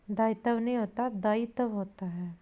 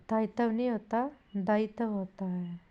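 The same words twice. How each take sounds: The two takes are said the same way.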